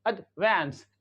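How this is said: It has a short flat 'a' as in cat.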